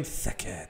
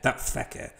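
First: Quiet, tentative "Theke" with a hard th at the start; name said softly. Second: Whispered "That Theke" with the th softened almost to an f; retry "Theke", breathy and unsure; name said again. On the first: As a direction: try out the name "Theke" carefully, as a question to yourself. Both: Shown as a demonstration. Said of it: "how you pronounce his first name".

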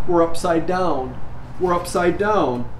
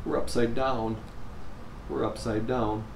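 First: Sobs deepening. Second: Sobbing quietly. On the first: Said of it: "her sobs deepening". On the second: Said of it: "Jennifer sobbed". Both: Acted.

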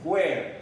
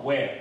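First: "where" with a breath of H before the W; aspirated "wh" at the start of "where"; H sounded. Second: "where" starting on a plain W; no puff of breath before "where"; silent H. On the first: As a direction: say "where" as "hwair". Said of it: "我们很多老师会念". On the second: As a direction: say "where" as "wair", with no H. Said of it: "H是不发音的哦". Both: Shown as a demonstration.

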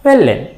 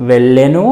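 First: వెళ్ళెన్ closed on a bare n; వెళ్ళెన్ with no vowel after n; vowelless final n. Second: వెళ్ళెను pitched low with a voiced u; full final ను. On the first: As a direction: drop the u, end వెళ్ళెన్ on n. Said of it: "పొల్లులాగానే". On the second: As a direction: say the whole ను in వెళ్ళెను. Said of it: "ను అన్నట్లుగా కూడా ఉండొచ్చు". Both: Shown as a demonstration.

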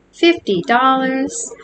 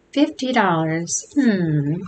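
First: Drawn-out, higher FIFTY DOLLARS; incredulous question. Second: Understated moan to oneself; mild moaning.

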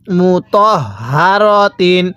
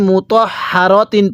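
First: মু তহ হা র তিন with the হা breathed audibly from the throat; voiced guttural ha. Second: মু তহ হা র তিন read quickly with a plain, unvoiced হা; common wrong reading. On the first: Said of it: "হাটা উচ্চারণের সময় মুখ দিয়ে আওয়াজ করছি". (হা-তে গলা থেকে আওয়াজ দিয়ে ধীরে মু তহ হা র তিন) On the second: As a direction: show the common mistake, the হা said flat. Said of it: "অনেকেই মু তহ হা র তিন পড়ি". (ভুলভাবে হা সাধারণ উচ্চারণে মু তহ হা র তিন) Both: Shown as a demonstration.

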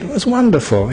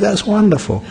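First: Wonderful lifted high and falling; high, bright wonderful. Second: Wonderful lifted high then dropping. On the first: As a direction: sing out wonderful with a high fall. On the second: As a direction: say wonderful with a high falling tune. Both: Shown as a demonstration.

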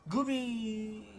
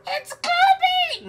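First: Failed attempt at a squeal, held out; forced squeal. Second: Loud, drawn-out, very high squeal; falsetto squeal. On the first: Streamer forcing the voice, half-hearted squeal. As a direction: try the high call and fall short. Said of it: "I'm forcing it". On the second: Recreating the first scream for chat, piercing squeal. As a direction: shriek it slowly in top falsetto. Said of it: "How did I do it the first time?". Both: Shown as a demonstration.

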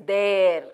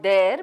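First: There with a long drawn vowel; correct pronunciation. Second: There with a short vowel; wrong pronunciation. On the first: Teacher correcting the short version, long drawn. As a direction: stretch out "theeere". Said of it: "but it is there". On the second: Teacher showing the mistake, vowel cut short. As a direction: say there without lengthening it. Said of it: "it's not there". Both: Shown as a demonstration.

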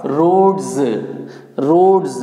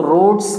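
First: रोड्स ending in voiced z, "rodz"; correct pronunciation. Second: रोड्स with final hissed "s"; wrong pronunciation. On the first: Teacher showing what it becomes, correct pronunciation रोड्स as "rodz". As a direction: say रोड्स falling, with a buzzing z. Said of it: "ये एस आपका जेड". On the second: Teacher quoting what people say, wrong pronunciation रोड्स with final "s". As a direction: say रोड्स as "rods" ending in s, not z. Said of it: "ये आपका wrong pronunciation है". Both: Shown as a demonstration.

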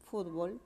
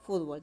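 First: Fútbol, stressed on the ú; fútbol stressed first. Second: Fútbol said as futbol, stress on bol; futbol stressed last. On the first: Teacher showing students fútbol, stress on fút. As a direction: say FÚT-bol. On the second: Teacher showing students futbol, stress on bol. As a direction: say fut-BOL. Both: Shown as a demonstration. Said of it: "puede ser pronunciada como".

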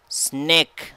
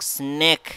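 First: Said in the usual way. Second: Snake with a crisp S and a long clear A; clear pronunciation model. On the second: Shown as a demonstration. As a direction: spell out Snake slowly for learners. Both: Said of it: "اسمع النطق".

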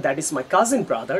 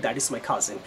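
First: Slow wrong example. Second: Soft correct version. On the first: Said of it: "you shouldn't say that". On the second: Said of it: "শুধু normally বলবেন". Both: Shown as a demonstration.

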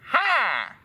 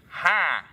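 First: Higher, falling flirty "Hi"; flirty reply. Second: Said in the usual way. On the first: A narrator's reading. Replying to Draco's greeting, flirty. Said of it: "I replied firmly". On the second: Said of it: "he said".

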